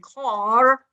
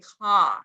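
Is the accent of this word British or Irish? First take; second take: Irish; British. First: It is said in an Irish accent. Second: It is said in an upper-class British accent. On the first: "if you go to Ireland, you will say car" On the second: "if you speak representative, like, you know, Queen Elizabeth, then you will say car"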